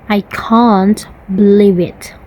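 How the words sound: It is said in a British accent, long a. "In the British, they would say, ... Long A in can't"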